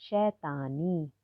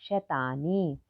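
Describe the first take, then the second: Both takes have the same delivery.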